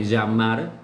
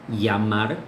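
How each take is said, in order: First: The double L sounds like Portuguese lh. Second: The double L sounds like a y sound. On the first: This is how it is said in other regions. "en otras como, es parecido a uyota do portugués" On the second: This is how it is said in some regions. "en algunas regiones la doble L se, se, pronuncia como una I"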